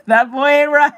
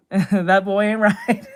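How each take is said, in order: First: Louder and higher, laughing through it; laughing catchphrase. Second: Slow, lightly voiced Texan drawl; a hint of a worried dad, stretched out slowly; Hank Hill. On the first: Retold or imitated. Streamer repeats the catchphrase to chat, laughing loudly. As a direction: burst out with the line amid laughter. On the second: Streamer quoting the cartoon dad's catchphrase, slow and light. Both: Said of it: "Hank Hill catchphrase".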